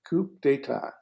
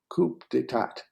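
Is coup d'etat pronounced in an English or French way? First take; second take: French; English. First: It is pronounced with a French accent. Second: It is pronounced with an English accent. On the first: "that's the French word" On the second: "if you want to pronounce it our way"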